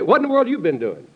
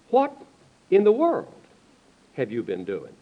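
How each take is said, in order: First: The word world carries no special stress. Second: The word world carries strong stress. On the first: A casual question about someone's activities. The speaker calls it wrong. "This is good, too" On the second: A question about what someone has done for the world. The speaker calls it right. "But we ought to ask them"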